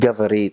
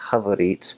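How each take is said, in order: First: It is said with a standard Russian hard g. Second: It is said with a Ukrainian h sound.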